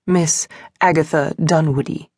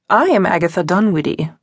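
First: Miss pressed firmly, falling at the end; stress on Miss. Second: Said in the usual way. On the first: A narrator's reading. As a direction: lean on the word Miss, then let Agatha Dunwoodie fall. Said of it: "she emphasized". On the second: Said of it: "the suffragist stated".

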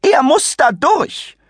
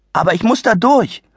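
First: Much higher, slow, sneering rise on er; shrill mock repeat; mocking echo. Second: Put-on higher young boy, firm, weight on durch; a polite kid insisting he must get through; plain boyish plea. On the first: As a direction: parrot the boy's words with scorn. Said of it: "kreischte sie". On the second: Adi's request, then mocked.

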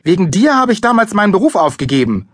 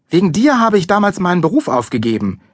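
First: High, loud, angry accusation; furious snapping. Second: High, accusing complaint; a mother's well-worn angry reproach. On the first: Mother lashing out at father, furious. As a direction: hurl the blame at him. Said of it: "fauchte sie Papa an". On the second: Mother blaming son for lost career, angry. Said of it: "richtig wütend auf mich ist". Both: A narrator's reading.

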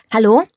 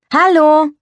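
First: "Hallo" called out loud with a rising question; a first call down the phone line; calling hello. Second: "Hallo" called much higher and louder; calling again louder. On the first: Calling into the telephone. (lautes fragendes Hallo ins Telefon) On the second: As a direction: shout it down the line, more impatient now. (noch lauter und höher gerufenes Hallo) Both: Acted.

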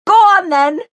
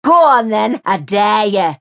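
First: Very high, loud shriek. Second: Loud, goading challenge; taunting dare. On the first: Mary shrieking after Jace as he walks off. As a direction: shriek it at his back. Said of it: "Mary shrieked at his back". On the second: Mary daring the neighbour to call the police. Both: A narrator's reading.

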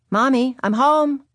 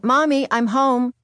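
First: Louder second call, drawn out. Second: Put-on child calling out, drawn out. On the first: Retold or imitated. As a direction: call out again into the house. Calling again, no answer. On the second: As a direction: call into the house, slowly. Child calling out coming home.

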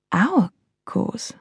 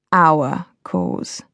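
First: "Our" lifted, a wary question on "Our cause"; questioning inflection. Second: Amused. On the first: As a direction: lean on "Our" as if doubting. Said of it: "The inflection was not lost". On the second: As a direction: savour "our" with a smug edge. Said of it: "He sounded amused". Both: A narrator's reading.

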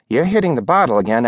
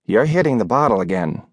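First: Fast, rising repeat of the rebuke; landlady pressing Rose, quicker and rising; hurried accusation. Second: A mild, steady reproach; landlady's scolding. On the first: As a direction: rattle off the charge again. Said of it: "landlady repeats accusation". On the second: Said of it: "Missus Cushman said". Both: Acted.

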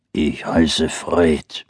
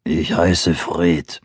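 First: Low slow bear growl. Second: Low slow bear voice; growling bear. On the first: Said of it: "brummte der Bär". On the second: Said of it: "sagte Fred". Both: Acted. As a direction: rumble it like a big bear.

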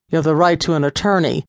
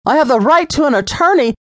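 First: Quick, unemotional routine reading; bland recital. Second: Much higher, louder, fast incredulous shout; outraged mockery. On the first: Officer reading Lisa her rights, fast and bland. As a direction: rattle it off like a form. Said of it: "He blandly reminded Lisa". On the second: Lisa scornfully repeating the officer's line, shouted. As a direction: throw his words back at him. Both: A narrator's reading.

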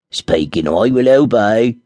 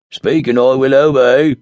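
First: Slow, odd little dwarf voice, louder; a magic dwarf reporting for duty. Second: Loud odd dwarf voice; a dwarf insisting on serving. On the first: Dwarf answering the summons of the ring, slow and formal. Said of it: "said the dwarf". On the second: Dwarf repeating the ring's formula, loud. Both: Acted.

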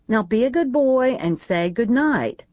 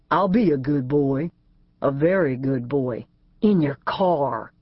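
First: Higher, brisk schoolmarm command; firm scolding. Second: Lower, slow suggestive echo; sly teasing fiancé. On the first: Keely ordering A J to say good night, higher mock-stern. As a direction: send him off like a naughty boy. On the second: A J echoing Keely's words back, lower and slow, teasing. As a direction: turn her words into a come-on. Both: A narrator's reading.

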